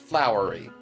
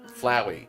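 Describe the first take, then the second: First: The name is said with an R sound. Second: The name is said without an R sound. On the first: The speaker calls it wrong. "Not flowery" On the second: The speaker calls it right. "Flowey has no R in his name"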